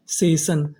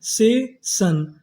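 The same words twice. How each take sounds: First: Said in the usual way. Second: session split slowly as से, शन; syllable-by-syllable. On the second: Shown as a demonstration. Teacher building session for students, slow and split. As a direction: stretch both parts of session with a gap.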